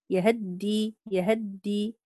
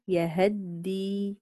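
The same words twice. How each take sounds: First: يهدي with the fatha on ه clipped short and quick; ikhtilas on the ha. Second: يهدي slow, the fatha on ه given its full length; full vowel on the ha. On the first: Teacher demonstrating Qalun's quick reading of the fatha in يهدي. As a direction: say يهدي rushing the short vowel on ه. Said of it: "هكذا، يعني أسرع في، آه، الفتحة". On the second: Teacher demonstrating Warsh's full fatha in يهدي. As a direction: stretch يهدي out, completing the vowel. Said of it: "فقرأ بإتمام الحركة". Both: Shown as a demonstration.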